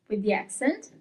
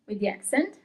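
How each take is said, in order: Both takes have the same delivery.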